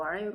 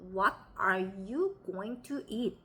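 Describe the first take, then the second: First: It is slurred, with the mouth barely moving. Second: Every word is pronounced fully and separately.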